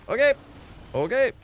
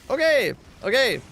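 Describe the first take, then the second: No difference in how they are said.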